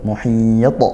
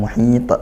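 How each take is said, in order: First: The final consonant's echo sounds heavy and thick. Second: The final consonant's echo sounds light and thin. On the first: The speaker calls it right. "Maka pantulannya tebal" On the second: The speaker calls it wrong. "bukan muhit"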